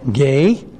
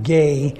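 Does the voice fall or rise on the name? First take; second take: rises; falls. First: The pitch rises on the name like a question. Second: The pitch stays level or falls on the name. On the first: The speaker calls it right. "like a question" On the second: The speaker calls it wrong.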